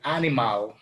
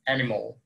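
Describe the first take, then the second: First: "animal" said as spelt, AH-nee-mahl; learners' mispronunciation. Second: "animal" said as AN-ih-mol; second A like O. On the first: Retold or imitated. Teacher imitating students' mistake, "animal" with both a's open. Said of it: "dicen anim". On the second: Shown as a demonstration. Teacher correcting students, "animal" with last a like o. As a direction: say "animal" ending in a dark -mol. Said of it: "La segunda A suena como O".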